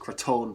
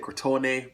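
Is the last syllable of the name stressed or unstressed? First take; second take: unstressed; stressed. First: The last syllable is said without stress. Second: The last syllable is said with stress. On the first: The speaker calls it right. "I'm going to pronounce them as Crotone because I don't see an accent on their name" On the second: The speaker calls it wrong. "I hear people sometimes say Crotone, but there's no accent"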